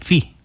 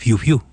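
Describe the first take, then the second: First: The word is said as a plain "fee". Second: The word is said with a "fiu" sound. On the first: The speaker calls it right. "ni siquiera puede pronunciar fee" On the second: The speaker calls it wrong. "es el mismo que dice fiu fiu"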